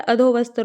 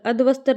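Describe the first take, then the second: First: अधोवस्त्र with long "dho"; correct form demo. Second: अधवस्त्र as "adh-vastra", no o; wrong form demo. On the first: Teacher corrects students, अधोवस्त्र with a clear o. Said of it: "होता है". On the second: Teacher shows the mistake, अधवस्त्र without the o. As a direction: say अधवस्त्र without a middle vowel. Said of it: "नहीं होता". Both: Shown as a demonstration.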